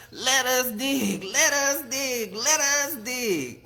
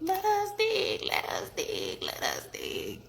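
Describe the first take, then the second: First: Chanted, loud, high, drawn-out frog holler; chanted, bellow it slowly like big frogs; big croaking work chant; bullfrog chant. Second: Thin, squeaky wee frog voice; small pinched peeping echo; little frog peep. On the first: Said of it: "And the bullfrog said". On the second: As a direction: squeak it like tiny frogs. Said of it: "the little frogs peeped". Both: A narrator's reading.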